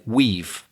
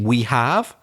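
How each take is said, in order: First: 'Have' shrinks to a short 've' sound. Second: The word 'have' is said as a full word. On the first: "I've said we've" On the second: "Instead of saying we have"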